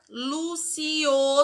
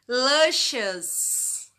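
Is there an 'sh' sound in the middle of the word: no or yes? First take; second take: no; yes. First: The middle consonant is said without an sh sound. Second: The middle consonant is said as an sh sound. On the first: The speaker calls it wrong. "Mas não é assim que pronuncia" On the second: The speaker calls it right. "Você vai falar com som de S H"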